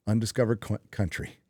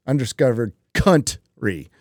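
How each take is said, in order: First: Said in the usual way. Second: Country with the first syllable punched out and split off; Country broken in two, leaning crudely on the first syllable; stress on first syllable of Country. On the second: Shown as a demonstration. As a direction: hit the COUN in Country hard, then a gap before -try.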